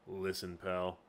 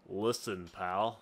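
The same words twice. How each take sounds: First: Lower, softer tough-guy voice; Zinc voice. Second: Lower-pitched first try at a tough pal; rejected Zinc voice. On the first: Game master retries mercenary Zinc's voice, low and soft. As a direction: drop it low and quiet. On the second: Game master tries out Zinc's voice, low. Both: Shown as a demonstration. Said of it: "no, not that kind of voice".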